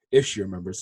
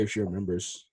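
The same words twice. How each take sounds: First: IF leaned on, rest of "If she remembers" low; stress on IF. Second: Said in the usual way. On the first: Real, not acted. Speaker doubting Medina remembers the story, stress on IF. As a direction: put the doubt on the word If. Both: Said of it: "it's a big if".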